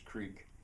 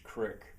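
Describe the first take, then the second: First: The word has a long vowel, like seek. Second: The word has a short vowel, like kick. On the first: It is the prestige dialect form. "I'll have it their way and pronounce it as creek" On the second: It is the local dialect form. "my own little revolution I think to to pronounce it as"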